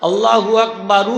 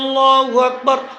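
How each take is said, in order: First: The last word ends with an added u vowel. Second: The last word ends on a bare r sound. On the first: The speaker calls it wrong. "ওই তো বারু হয়" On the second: The speaker calls it right. "রা সাকিন"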